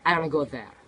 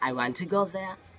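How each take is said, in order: First: Want to is run together as wanna. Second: Want to is said as two full words. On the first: The speaker calls it right. "spoken English is, is to say" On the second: The speaker calls it wrong. "it sound like a more robotic"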